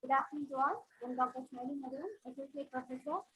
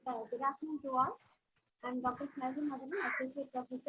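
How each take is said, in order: First: Barely audible. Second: Very faint, distant voice; faint voice, far from the mic; barely audible. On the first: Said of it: "I'm audible now". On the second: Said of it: "Her voice is very low". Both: Real, not acted.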